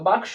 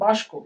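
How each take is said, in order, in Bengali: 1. এই গুচ্ছে k আগে আসে, s পরে। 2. এই গুচ্ছে s আগে আসে, k পরে। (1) "ছিল বাক্স" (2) "উচ্চারণ করছে বাস্ক"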